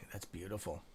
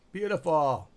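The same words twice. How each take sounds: First: Low, soft murmur of approval; quiet admiration. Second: Higher, louder burst of approval; delighted exclamation. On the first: Streamer watching the stock move, quietly admiring. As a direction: say it softly, almost to yourself. First, low reaction to the screen. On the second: Streamer cheering the stock move, delighted. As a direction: exclaim it out loud with relish. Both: Real, not acted.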